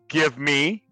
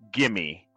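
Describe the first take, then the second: First: Both words are said fully and separately. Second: The words are blended into one reduced word.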